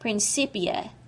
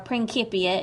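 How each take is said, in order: First: The word has an English-style pronunciation. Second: The word has a Latin-style pronunciation.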